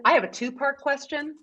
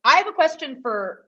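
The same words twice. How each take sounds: First: Quoting a film line; movie quote. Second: Said in the usual way. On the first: Retold or imitated. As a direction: deliver it like a famous movie line. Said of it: "You know what that's from?".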